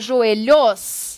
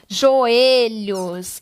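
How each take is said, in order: First: The stress is on the last syllable. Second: The stress is on the second-to-last syllable. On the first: The speaker calls it wrong. "Para ser a última sílaba?" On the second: The speaker calls it right. "Não, eu falo joelhos. Então, ela não é oxítona, e sim paroxítona"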